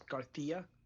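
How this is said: The 'c' is a lisped 'th' sound. "as Garcia"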